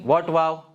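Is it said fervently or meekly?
fervently. It is said with fervor and emotion.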